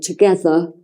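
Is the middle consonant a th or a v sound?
th. The middle consonant is a th sound. "words like together"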